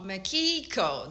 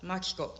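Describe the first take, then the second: First: It is said with one syllable strongly stressed. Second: It is said flat, with no strong stress. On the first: The speaker calls it wrong. "the Japanese name is not Makiko. That's the American way" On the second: The speaker calls it right. "the Japanese people, it's a very flat"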